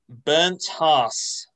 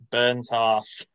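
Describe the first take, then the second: First: The name is said in its native way. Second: The name is said as English commentators said it.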